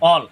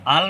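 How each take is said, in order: First: The vowel is a rounded, heavy 'o'. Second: The vowel is a bright open 'a'. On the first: The speaker calls it right. "হবে অল" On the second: The speaker calls it wrong. "আল না হয়ে হবে অল"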